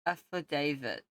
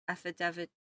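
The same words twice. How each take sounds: First: Affidavit said as af-uh-DAY-vit, long a; Affidavit with stress on DAY, checked; careful pronunciation. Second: Affidavit said as af-uh-TEV-it, short e; Affidavit with stress on TEV, unsure; unsure pronunciation. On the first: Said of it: "according to Google". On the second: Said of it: "How do you pronounce that". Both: Real, not acted.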